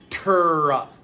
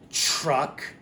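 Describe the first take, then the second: First: The word begins with a clear 't' sound. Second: The word begins with a 'ch' sound. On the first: The speaker calls it right. "When we say truck, it's actually T, er, truck" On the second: The speaker calls it wrong. "if people aren't saying it carefully, they could say it like truck, and it sounds like a C H"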